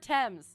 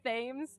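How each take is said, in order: First: The word begins with a plain T sound. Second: The word begins with a th sound. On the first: The speaker calls it right. "it was just the T" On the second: The speaker calls it wrong. "I used to say Thames"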